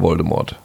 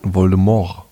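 First: The final T sound is clearly pronounced. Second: The final T sound is left out. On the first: "heißt er übrigens nicht mehr Voldemort" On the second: "Da lassen das T so hart weg"

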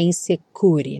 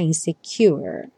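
First: The u is said without a y glide. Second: The u is said with a y glide. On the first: The speaker calls it wrong. "Tem que ter um izinho na frente, não é insecure" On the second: The speaker calls it right. "Esse U tem som de you"

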